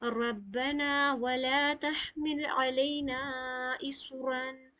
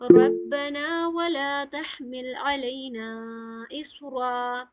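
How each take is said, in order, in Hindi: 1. अंतिम शब्द 'n' की आवाज़ पर खत्म होता है। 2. अंतिम शब्द लंबे 'a' पर खत्म होता है। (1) "तो हम ऐसे नहीं पढ़ेंगे, इस रन कह के नहीं रुकेंगे" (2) "इसे ऐसे तोड़ेंगे जैसे तोड़ने का कायदा है"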